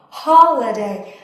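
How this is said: It is said in a British accent. "in British English, I believe they would say ha"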